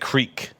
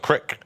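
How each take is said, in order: First: The vowel is a long 'ee' sound. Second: The vowel is a short 'i' sound. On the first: "instead of saying creek" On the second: "they were like, ah, let's go down to the crick"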